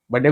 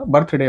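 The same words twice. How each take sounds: First: "बर्थडे" as "badde", no r or th; mispronounced birthday. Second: "बर्थडे" with r and th sounded; correct birthday pronunciation. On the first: Correcting listeners' mistake, "बर्थडे" quoted as "badde". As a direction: collapse "बर्थडे" into two syllables, "bad-de". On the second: Teaching the proper word, "बर्थडे" with "birth" fully pronounced. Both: Shown as a demonstration. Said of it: "बर्थ ना बोलकर".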